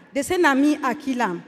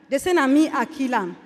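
Both takes have the same delivery.

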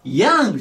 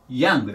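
First: "ヤング" with the ヤ held long, like ヤーング; wrongly stretched vowel. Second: "ヤング" with a short ヤ, not stretched; short popped vowel. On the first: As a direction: drag out the ヤ of "ヤング". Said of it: "ヤングじゃないの". (「ヤング」のヤを長く伸ばす誤例) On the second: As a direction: say "ヤング" with a quick first vowel. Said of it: "ヤングです". (「ヤング」のヤを伸ばさず短く) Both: Shown as a demonstration.

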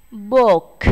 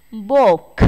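First: Book again louder with a clear breathy K release; repeat aspirated K. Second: Book, louder, final K released with a puff of air; aspirated final K. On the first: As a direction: model book once more, K puffed. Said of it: "nghe cô đọc một lần nữa". (book đọc lại bật hơi rõ) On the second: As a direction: punch out the K in book. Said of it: "chúng ta sẽ chú ý bật hơi nhé". (book bật hơi âm K cuối) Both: Shown as a demonstration.

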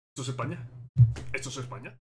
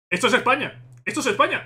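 First: Much softer, lower, almost to himself; hushed disbelief. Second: Triumphant cry. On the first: Fan asking himself if it is Spain, hushed. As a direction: murmur the question in awe. Quiet disbelief before shouting. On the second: Fan confirming to viewers it is Spain, triumphant cry. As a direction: proclaim it to the viewers. Answers himself loudly. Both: Real, not acted.

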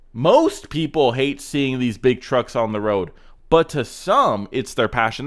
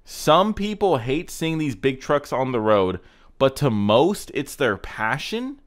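First: Fix the caption, pressing hard on "Most" and "some"; corrected reading. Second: Slow read with "Some" and "most" stressed, ending on a puzzled rise at "passion"; mocking read-back. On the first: Shown as a demonstration. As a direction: set it right, slowly, leaning on "Most" and then on "some". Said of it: "That makes way more sense". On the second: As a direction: quote it back slowly, leaning on "Some" and "most" as if they make no sense. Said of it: "That was the most ass backwards caption ever".

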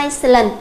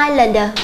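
First: Iceland with the S wrongly pronounced; wrong silent S sounded. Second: Islander with no s sound, "ai-lander"; silent S. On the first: Teacher showing students the reading to avoid, S sounded in "Iceland". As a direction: say "Iceland" with an audible s after the "ai". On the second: Teacher modelling the correct reading for students, silent S in "islander". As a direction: say "islander" leaving the S completely silent. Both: Shown as a demonstration. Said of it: "âm S là âm không được phát âm".

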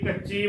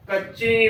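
First: ਕੱਚੀ with a purely oral 'ee'; wrong, without nasalisation. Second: ਕੱਚੀ as 'kachcheen'; correct nasalised ending. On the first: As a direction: say ਕੱਚੀ keeping sound out of the nose. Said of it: "ਨਾ ਕਿ ਕੱਚੀ ਬੋਲਣਾ". (ਕੱਚੀ ਬਿਨਾਂ ਬਿੰਦੀ) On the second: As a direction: nasalise the final vowel of ਕੱਚੀ. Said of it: "ਕੱਚੀ ਬੋਲਣਾ ਹੈ". (ਕੱਚੀ ਬਿੰਦੀ ਨਾਲ, ਨੱਕ ਵਿੱਚੋਂ) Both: Shown as a demonstration.

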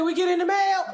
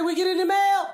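First: Mama's voice. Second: Higher, louder mimic of mama asking; mama's voice. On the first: Retold or imitated. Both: Comic who plays her mother asking about mail. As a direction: play the nagging mom sending kids. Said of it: "Mama say".

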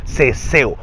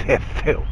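First: Said in the usual way. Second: "ceceo" hissed softly with th sounds; ceceo escupido. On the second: Shown as a demonstration. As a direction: lisp "ceceo" quietly, as if spitting. ("ceceo" suave, con sonido escupido) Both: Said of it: "Como que escupe o ceceo".

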